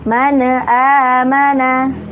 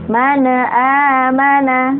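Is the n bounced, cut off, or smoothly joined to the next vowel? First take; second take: bounced; bounced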